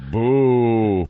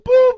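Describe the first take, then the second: First: It is said in a low-pitched voice. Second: It is said in a high-pitched voice.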